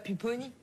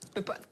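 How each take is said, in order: First: The name is said with its final vowel. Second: The name is said with its final vowel dropped. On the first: The speaker calls it wrong. "tu dis pas Pupponi" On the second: The speaker calls it right. "il faut pas prononcer la fin des mots"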